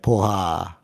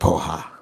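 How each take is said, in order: First: It is said in an impressed, approving tone. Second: It is said in a scornful, insulting tone. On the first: Something is great. "you see the tone? It's like, oh, that's dope" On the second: Someone is stupid. "It's like you're an idiot"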